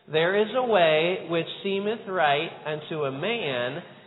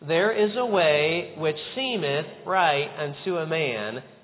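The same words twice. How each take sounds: First: The word man carries the emphasis. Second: The word seemeth carries the emphasis. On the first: "this time emphasizing the word man" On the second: "would you emphasize the word seemeth?"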